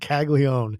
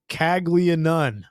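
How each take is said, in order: First: The surname is said in a shortened form. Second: The surname is said in a longer form. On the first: This is how the player's name is actually pronounced. The speaker calls it right. "now I know how to pronounce this cat's name" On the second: This is how the spelling seems to suggest it. The speaker calls it wrong. "Why is it not Caglianone?"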